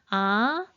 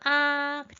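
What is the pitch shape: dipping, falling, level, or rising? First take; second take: rising; level. First: The pitch rises from middle to high. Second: The pitch stays high and level. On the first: "이성은 어떻게 발음해요?" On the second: "일성을 눌러주시면 하고 아이들과 함께 발음"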